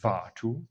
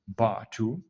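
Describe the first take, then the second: First: The word starts with a soft V-like sound. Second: The word starts with a plain B sound. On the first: The speaker calls it right. "it's actually like Vatu" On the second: The speaker calls it wrong. "if you pronounce it poorly, you would just say Batu"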